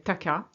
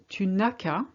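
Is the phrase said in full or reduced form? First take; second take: reduced; full. First: It is said fast, squeezed to two syllables. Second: Every syllable is said, including the ne.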